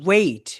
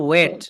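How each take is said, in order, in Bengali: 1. স্বরধ্বনিটি 'e' থেকে 'i'-এর দিকে গড়িয়ে যায়। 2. স্বরধ্বনিটি সাধারণ, সমতল 'e'। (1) "বলবো ওয়েট" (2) "অনেকে বলে ওয়েট"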